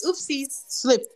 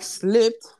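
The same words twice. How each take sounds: First: High, slow fake-innocent singsong; mock-innocent. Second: SLIPPED raised in pitch as a question; incredulous echo. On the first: Girl who pushed her off the slide, mock innocence. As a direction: imitate her pretending it was an accident, pitched up. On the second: Retold or imitated. Pushed girl questions the excuse, incredulous rising SLIPPED. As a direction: throw "Slipped?" back with a rising, disbelieving tune. Narrator throws the word back.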